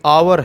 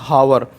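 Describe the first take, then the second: First: The word starts with a vowel, no h sound. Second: The word starts with an audible h sound. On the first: The speaker calls it right. "आवर है ना कि हावर। ये एच जो है silent है" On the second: The speaker calls it wrong. "ना कि हावर"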